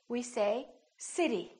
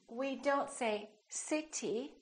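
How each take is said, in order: First: The middle consonant is a quick, light tap. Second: The middle consonant is a strong, full stop. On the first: The speaker calls it right. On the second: The speaker calls it wrong.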